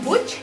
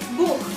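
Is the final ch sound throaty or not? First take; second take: not throaty; throaty. First: The final ch is not a throaty kh sound. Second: The final ch is a throaty kh sound. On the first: The speaker calls it wrong. "bukan Buch dibacanya" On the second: The speaker calls it right. "tapi Buch"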